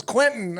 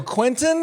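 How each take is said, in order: First: "Quentin." with a firm falling close; flat confirmation. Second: High rising "Quentin?" like a timid question; unsure question. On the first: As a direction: state "Quentin." curtly, dropping at the end. Tarantino curtly confirms. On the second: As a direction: ask "Quentin?" back in disbelief, pitch rising. Questioning the name back. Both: Retold or imitated.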